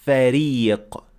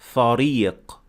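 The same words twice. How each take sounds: First: The R is light, said with an empty mouth. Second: The R is heavy, said with a full mouth. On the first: The speaker calls it right. "we said فريق" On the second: The speaker calls it wrong. "not فريق. That is not correct"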